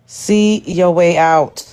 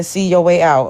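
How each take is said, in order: First: Half-speed, each word drawn out; spaced-out, deliberate delivery; slow, pointed dismissal. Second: Said in the usual way. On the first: Real, not acted. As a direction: repeat it slowly and deliberately for emphasis. Repeats the dismissal for emphasis.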